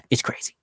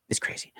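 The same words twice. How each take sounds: First: "It's crazy" whispered after a sigh; sigh, then whisper "It's crazy". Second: "It's crazy" barely voiced, fading; trailing off. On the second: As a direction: let "It's crazy" fade away to nothing. Repeat dropped very low. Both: Real, not acted.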